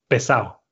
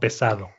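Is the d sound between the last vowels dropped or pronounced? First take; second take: dropped; pronounced. First: The d between the vowels is left out. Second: The d between the vowels is clearly pronounced. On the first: "escucho a personas que son de Madrid o que son de otros lugares así decir"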